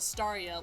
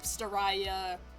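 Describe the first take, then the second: First: The name ends with a 'ree-ah' sound. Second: The name ends with a 'rye-ah' sound. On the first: The speaker calls it right. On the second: The speaker calls it wrong. "not like"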